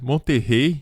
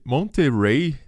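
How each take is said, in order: First: It is pronounced the Portuguese way. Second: It is pronounced the English way.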